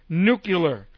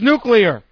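First: The word ends with a 'cular' sound. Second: The word ends with a clear 'clear' sound. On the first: The speaker calls it wrong. "It's not nuclear. Nuclear is what Homer Simpson says" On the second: The speaker calls it right. "it's nuclear"

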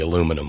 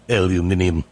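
First: It is said the American way, four syllables. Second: It is said the British way, five syllables.

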